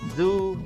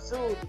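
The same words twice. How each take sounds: First: The first sound is a voiced, vibrating buzz. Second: The first sound is a hiss without voicing. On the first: The speaker calls it right. "Jadi dia bergetar" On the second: The speaker calls it wrong. "bukan bukan zoo"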